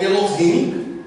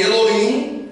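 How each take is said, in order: First: "Elohim" said as e-lo-HIM, H sounded; "Elohim" with an audible H before "im". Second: "Elohim" said as e-lo-IM, silent H; "Elohim" as Elo-im, vowels running together; Elohim without H. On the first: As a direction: breathe an H into the end of "Elohim". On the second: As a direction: drop the H in "Elohim". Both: Shown as a demonstration. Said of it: "como você preferir".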